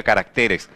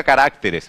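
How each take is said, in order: First: Caracteres stressed on TE, ca-rac-TE-res; shifted stress. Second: Caracteres wrongly stressed on RAC, ca-RÁC-te-res. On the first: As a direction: move the stress in caracteres onto TE. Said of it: "A maior intensidade de voz". (caracteres com a tônica certa, no TE) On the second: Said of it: "A maior intensidade de voz no plural não fica". (caracteres com a tônica errada, no RÁC) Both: Shown as a demonstration.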